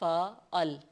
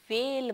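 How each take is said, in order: First: The word is said as two syllables. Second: The word is said as one short syllable. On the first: The speaker calls it right. "ये है फ़ाअल" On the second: The speaker calls it wrong. "इसको बराए मेहरबानी फेल मत पढ़िएगा"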